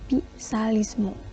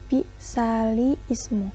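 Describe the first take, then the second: First: The glottal stop is dropped, words run together. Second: The glottal stop before ismu is kept. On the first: This is how it is actually recited. "kalau dibaca secara naql e, menjadi" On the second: This is how it looks in writing. "secara fisik memang seperti"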